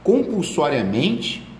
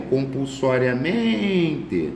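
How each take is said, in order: First: Compulsoriamente said slowly, the syllable men stretched; syllable demo. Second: Compulsoriamente drawn out very slowly, stress on men; syllable demo. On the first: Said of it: "Compulsória tem acento". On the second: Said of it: "a sílaba tônica é o men". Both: Shown as a demonstration.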